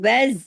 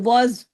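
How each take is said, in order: First: The letters are pronounced light, tongue kept low. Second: The letters are pronounced heavy, tongue raised high. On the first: The speaker calls it right. "दोनों बारीक हरूफ हैं" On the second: The speaker calls it wrong. "अगर आप इसको हैवी कर देंगे, ऊपर ले जाएंगे जुबान को"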